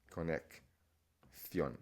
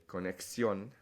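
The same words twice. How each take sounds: First: Conexión slowly broken up, with th before -ión; wrong th pronunciation. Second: Conexión with a plain s sound, ko-nek-SYON; s pronunciation. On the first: Teacher shows what not to say in Spain, th pronunciation. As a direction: say conexión as ko-nek... THYON, drawn out. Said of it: "Conexión doesn't make sense in Spain". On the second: Teacher shows what to say in Spain, s pronunciation. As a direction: say conexión with an s before -ión. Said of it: "you're gonna say conexión and not". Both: Shown as a demonstration.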